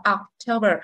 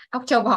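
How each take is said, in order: First: October with a light Oc and stressed TO; ocTOber, said as the teacher's model; corrected pronunciation. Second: October said the schoolroom way, as learners often do; mock learner version of October; common learner mistake. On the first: Shown as a demonstration. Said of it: "cái từ này mình đọc là October". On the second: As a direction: imitate a learner's mispronounced October. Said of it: "các bạn hay chọc rồi thì em October".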